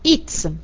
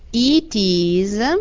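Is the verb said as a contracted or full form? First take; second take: contracted; full. First: The verb is shortened and joined to the pronoun. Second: The verb is said as a separate full word. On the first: "Nella forma contratta, ... scompare la vocale iniziale del verbo" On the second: "La forma intera"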